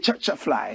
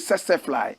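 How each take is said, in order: First: The word tsetse begins with a ch sound. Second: The word tsetse begins with an s sound. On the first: This is how the speaker's own group says it. "but we say" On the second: This is how some other people say it. "Some people say"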